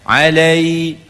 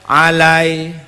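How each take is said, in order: First: The final y-glide is full and clearly raised. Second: The final y-glide is weak and cut short. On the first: The speaker calls it right. "lidah tu kita bengkokkan naik ke langit" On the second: The speaker calls it wrong. "dia tak cukup lai tu"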